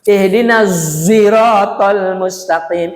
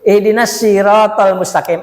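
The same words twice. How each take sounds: First: The word sirat begins with a z sound. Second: The word sirat begins with an s sound. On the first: "Ada juga yang menggunakan zai" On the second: "Pakai shin"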